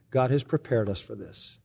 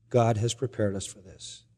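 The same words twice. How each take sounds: First: Soft, with has leaned on; stress on has. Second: Soft, with God leaned on; stress on God. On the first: Husband to wife after the accident, soft stress on "has". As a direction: quietly press the word "has". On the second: Husband repeating to wife, soft stress on "God". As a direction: quietly press the word "God" first. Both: Retold or imitated.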